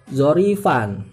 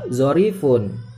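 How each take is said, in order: First: The word ends with an 'an' sound. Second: The word ends with an 'un' sound. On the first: The word is in the accusative case. "Bisa juga kita baca nasab" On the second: The word is in the nominative case. "Bisa juga kita baca rofa"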